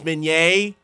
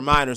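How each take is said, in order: First: The name is said with three syllables. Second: The name is said with two syllables. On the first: The speaker calls it right. "But it's Minier" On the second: The speaker calls it wrong. "And I call her Minor"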